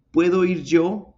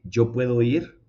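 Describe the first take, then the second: First: High, louder, stressing puedo; correct question. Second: Rising on ir, less weight; wrong question. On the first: Teacher contrasting right and wrong questions, high and louder. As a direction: punch the verb first. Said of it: "Por eso es que decimos". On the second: Teacher contrasting right and wrong questions, plain rise. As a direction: say the wrong version. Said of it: "en vez de". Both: Shown as a demonstration.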